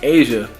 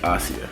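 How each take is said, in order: First: The name is pronounced the usual way. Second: The name is pronounced in an unusual way. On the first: This is the normal name. "instead of it being Asia" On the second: This is the preferred variant name. "I would want to pronounce it different"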